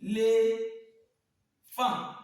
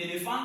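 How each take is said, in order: First: "Éléphant" very slow, long held syllables with gaps; one voice burst per syllable. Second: Said in the usual way. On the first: Shown as a demonstration. Teacher leading pupils in calling it, "Éléphant" syllable by syllable. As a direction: draw out "Éléphant" as é, lé, phant. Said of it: "coup de voix". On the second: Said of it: "on va appeler ensemble".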